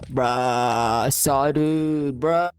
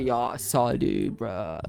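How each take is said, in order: First: Put-on frat boy. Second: Put-on low, slow frat-boy drawl. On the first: Doing his best American accent, exaggerated frat boy. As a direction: drag out the bruh like a frat bro. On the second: Asked for his best American accent, low frat boy. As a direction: drop low and drag it out like a frat bro. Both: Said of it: "You want frat boy?".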